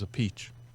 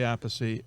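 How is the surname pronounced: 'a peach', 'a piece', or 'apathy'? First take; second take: a peach; apathy. First: The name sounds like 'a peach'. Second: The name sounds like 'apathy'. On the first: This is the Italian way of saying the name. "He says a peach. That's the Italian way" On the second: This is how the speaker says his own name. "I say apathy"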